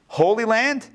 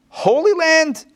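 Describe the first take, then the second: First: "Holy land?" asked with a rising, doubtful tone; questioning. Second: "Holy land?" much higher and louder, in disbelief; incredulous. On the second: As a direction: throw out "Holy land?" as a loud, incredulous challenge. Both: Shown as a demonstration. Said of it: "I'll just play both sides here".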